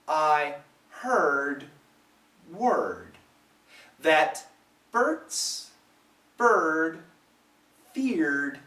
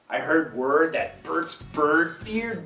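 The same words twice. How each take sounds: First: It is said slowly, like a robot. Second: It is said quickly and naturally. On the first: "The first time slowly, kind of like a robot" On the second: "like a human"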